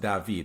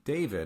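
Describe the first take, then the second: First: The name is said with a French pronunciation. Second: The name is said with an English pronunciation. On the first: The speaker calls it right. "it's pronounced David" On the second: The speaker calls it wrong. "People aren't going to know what you're talking about"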